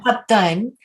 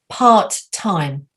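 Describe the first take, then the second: First: The vowels are said short and clipped. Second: The vowels are said long and drawn out. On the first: The speaker calls it wrong. "It's not part time" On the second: The speaker calls it right. "They're slightly longer vowel sounds"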